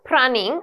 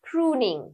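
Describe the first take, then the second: First: The first vowel is short, as in 'run'. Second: The first vowel is long, as in 'moon'. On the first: The speaker calls it wrong. "It's not prunning" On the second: The speaker calls it right. "you pronounce it as pruning"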